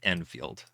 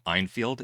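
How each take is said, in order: First: The first syllable sounds like 'en'. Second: The first syllable sounds like 'eye'. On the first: The speaker calls it right. "It's Enfield. ... Enfield is E N" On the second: The speaker calls it wrong. "Did you call them Enfield?"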